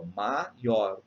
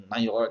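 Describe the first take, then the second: First: "maior" split in two as ma-ior; separated syllables. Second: "maior" with the vowels forced together; run-together vowels. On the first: Teacher demonstrating a hiatus, syllables kept apart. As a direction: break "maior" into ma, then ior. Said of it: "A gente lê separado". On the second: Teacher showing it cannot be read that way, vowels joined. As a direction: try to squeeze "maior" into one syllable. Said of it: "nem dá pra eu ler". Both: Shown as a demonstration.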